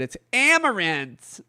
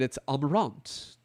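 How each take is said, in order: First: It is said in an American accent. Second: It is said in a British accent.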